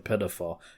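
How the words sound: It is said with an American pronunciation.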